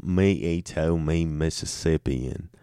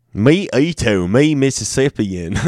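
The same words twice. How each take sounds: First: Quieter caveman intro, less smiling; straighter caveman take. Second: Mock primitive voice, grinning through it; smiling caveman voice. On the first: Acted. Second caveman intro, trying not to smile. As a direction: say it flatter and softer this time. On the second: Caveman intro while reading state names, smiling. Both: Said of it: "I was smiling too much when I said that".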